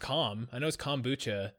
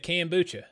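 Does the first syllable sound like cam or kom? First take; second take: kom; cam. First: The first syllable sounds like kom. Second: The first syllable sounds like cam. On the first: The speaker calls it right. "I know it's kombucha" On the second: The speaker calls it wrong. "I say cam, like Cam Newton"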